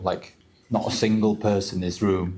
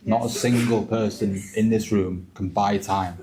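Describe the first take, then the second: First: Said in the usual way. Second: "single" pressed hard, slower pace, falling close; stress on SINGLE. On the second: Real, not acted. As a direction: hit "single" and slow the whole line.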